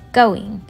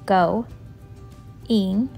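First: The word is said as one quick unit. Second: The word is split into two parts. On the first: "say the word fast" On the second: "sound out each part"

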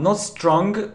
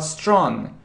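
First: A hard g sound is released after the nasal. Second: It ends on the nasal with no hard g. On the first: The speaker calls it wrong. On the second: The speaker calls it right. "but strong"

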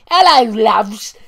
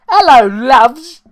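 First: It is said in a cockney accent. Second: It is said without a cockney accent.

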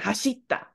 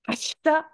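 First: The vowel after sh is fully voiced. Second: The vowel after sh is nearly silent. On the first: The speaker calls it wrong. "rather than hashita ... you don't really need the aggressive E" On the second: The speaker calls it right. "it's probably gonna be hashita"

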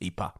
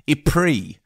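First: It is said with a Flemish pronunciation. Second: It is said with a British English pronunciation. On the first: This is the name the locals use. "the name the locals use, which is the Flemish name" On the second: This is the name most English speakers use. "a beautiful British mangling of French"

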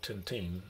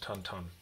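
First: The name is said the anglicized way. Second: The name is said the Belgian way. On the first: The speaker calls it wrong. "It's not Tintin" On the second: The speaker calls it right. "it's pronounced Tintin"

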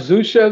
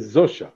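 First: The name is said with an ordinary Hebrew pronunciation. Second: The name is said with a Polish pronunciation.

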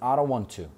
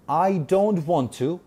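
First: The words are run together and reduced. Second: Every word is said fully and separately.

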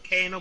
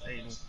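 First: The word begins with a K sound. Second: The word begins without a K sound. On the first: "so it's K-anal" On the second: "but silent K, so it's anal"

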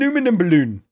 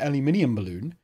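First: Aluminium is said with an American pronunciation. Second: Aluminium is said with a British pronunciation. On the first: The speaker calls it right. "we should pronounce it how they would pronounce it there" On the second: The speaker calls it wrong. "not an aluminium balloon"

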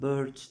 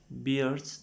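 First: The vowel sounds like the one in bird. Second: The vowel sounds like the one in ear. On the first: It sounds like the word for a bird. The speaker calls it wrong. "bird diye kuş gibi okuyanlar olabiliyor" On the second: It means facial hair. The speaker calls it right. "telaffuzlarda dikkat edin"

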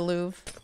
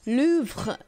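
First: Louvre is pronounced in an easier, simplified way. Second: Louvre is pronounced in a careful, harder way. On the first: "It's kind of hard to say, so I just say the Louvre" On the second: "If you want to say it correctly, you should say Louvre"

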